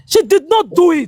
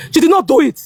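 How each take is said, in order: First: "She did not do it" said slowly, each word leaned on; slow firm insistence. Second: Said in the usual way. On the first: Real, not acted. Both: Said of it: "Yes, I'm standing to it".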